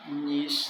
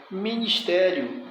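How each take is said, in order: First: Syllable by syllable. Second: Said in the usual way. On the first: Shown as a demonstration. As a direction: sound out "ministério" piece by piece, softer. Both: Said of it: "sílaba forte".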